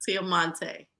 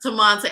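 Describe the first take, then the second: First: Tiamonte with an extra syllable, tee-ah-MON-tay; mispronounced name. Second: Tamonte said in three syllables, tuh-MON-tay; corrected name. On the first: Host guessing the guest's name, says Tiamonte. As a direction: Tiamonte stretched into four syllables. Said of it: "That's close". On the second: Host repeating the guest's name, now Tamonte. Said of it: "I put too many syllables in there". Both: Real, not acted.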